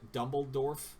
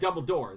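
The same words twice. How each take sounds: First: The name is pronounced in a garbled way. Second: The name is pronounced in the standard way. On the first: The speaker calls it wrong. "I totally said that wrong" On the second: The speaker calls it right. "that's it"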